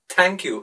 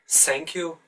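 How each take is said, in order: First: The th is pronounced as a t sound. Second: The th is pronounced as an s sound. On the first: The speaker calls it right. "replace them with t and d" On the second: The speaker calls it wrong. "pronounce them like s"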